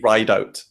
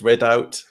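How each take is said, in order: First: The name is said with a long 'ride' vowel. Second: The name is said with a short 'rid' vowel. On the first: The speaker calls it right. "actually ride out. It's pronounced" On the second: The speaker calls it wrong. "the other one I get is rid out"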